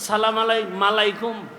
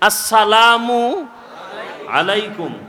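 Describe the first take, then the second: First: The greeting is slurred, with an added m sound. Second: The greeting is said clearly with every syllable. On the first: The speaker calls it wrong. "মালাইকুম কি?" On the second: The speaker calls it right. "শুদ্ধ করে সালাম"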